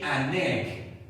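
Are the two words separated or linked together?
linked. The two words are linked smoothly together.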